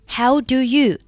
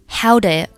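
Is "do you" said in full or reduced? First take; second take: full; reduced. First: "Do you" is said fully, each word clear. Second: "Do you" is weakened and blended into one syllable.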